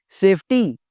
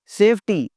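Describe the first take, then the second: No difference in how they are said.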